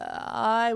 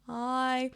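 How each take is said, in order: First: The vowel starts with a creaky vocal fry. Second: The vowel starts smoothly without any catch. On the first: "with a vocal fry" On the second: "or smooth"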